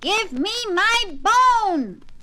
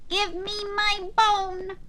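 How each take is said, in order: First: It is said a little louder. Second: It is said in a quiet voice.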